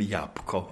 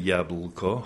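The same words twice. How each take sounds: First: The ł is a W-like sound. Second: The ł is a dental L sound. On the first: This hides where the speaker comes from. "mówiłem jabłko wtedy" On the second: This marks the speaker as coming from the east. "nie mówiłem jabłko"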